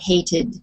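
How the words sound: The ending is said the British way. "which is more British"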